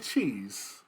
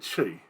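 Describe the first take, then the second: First: The word is said in the standard full way. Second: The word is clipped short, like che. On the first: This is the correct name of the food. The speaker calls it right. "it is called cheese" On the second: This is how someone else says it. The speaker calls it wrong. "He say che"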